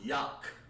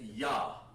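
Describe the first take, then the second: First: The word ends in a hard k sound. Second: The word ends in an open vowel sound. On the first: The speaker calls it wrong. "not Yak" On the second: The speaker calls it right. "To make this sound correct, you want to say Yah"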